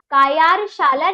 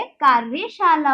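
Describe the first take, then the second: First: कायारशाला as "kaa-yaar-shaala", r after the y, louder; wrong pronunciation. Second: कार्यशाला as "kaar-ya-shaala", r before the y; correct pronunciation. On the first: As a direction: misread it as कायारशाला with a long "yaar". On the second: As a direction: give the right reading कार्यशाला, r closing "kaar". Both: Shown as a demonstration. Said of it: "नहीं होता है".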